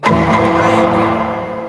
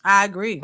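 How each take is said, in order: First: Stretched very slow and breathy, much louder; a long, loud, breathy I agree; emphatic drawn-out agree. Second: Said in the usual way. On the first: Real, not acted. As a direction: drag the words out hard for emphasis. Repeats agreement, second time drawn out.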